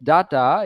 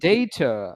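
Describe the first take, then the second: First: The first vowel sounds like the 'a' in cat. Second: The first vowel sounds like the 'a' in day. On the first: The speaker calls it wrong. "Is not actually pronounce as ডাটা" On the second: The speaker calls it right. "Is pronounce as"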